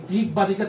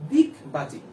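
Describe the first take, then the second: First: Said in the usual way. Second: দিগবাজি begun high, with dental দ for ড; soft d sound. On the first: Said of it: "তুমি উচ্চারণ করবা হচ্ছে". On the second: Shown as a demonstration. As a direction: pitch up দিগবাজি and start it on a dental d. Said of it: "ডিগবাজিকে তুমি উচ্চারণ করবা হচ্ছে".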